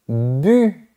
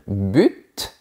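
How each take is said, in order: First: The word ends without a T sound. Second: The word ends with a clear T sound. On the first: "Vous avez dit bu" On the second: "mais on ne devrait pas dire but"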